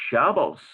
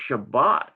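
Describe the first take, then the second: First: The word ends with an S sound. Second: The word ends with a T sound. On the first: One group of speakers says it this way. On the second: Another group of speakers says it this way. "and some say Shabbat"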